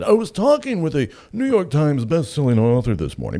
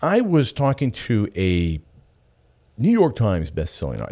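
First: Higher and louder, mock pompous name-drop; pretentious. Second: Said in the usual way. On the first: Shown as a demonstration. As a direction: puff it up like a self-important name-dropper. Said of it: "Is there anything more pretentious than starting a sentence with that?". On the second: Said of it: "Is there anything more pretentious".

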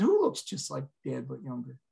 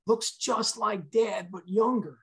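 First: Said in the usual way. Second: High, drawn-out insistence; stretched, higher-pitched retold urgency; agitated insistence. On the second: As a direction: imitate an agitated son, slow and high. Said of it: "he was very agitated".

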